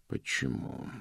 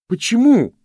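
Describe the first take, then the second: First: Soft, pensive mutter; thoughtful murmur. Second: High, loud, breathless shout; anguished cry. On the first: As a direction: murmur it as if pondering. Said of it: "задумчиво пробормотал он". (задумчивое бормотание) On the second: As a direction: cry out at a much higher pitch. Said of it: "задыхаясь, проговорил он". (отчаянный высокий крик) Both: A narrator's reading.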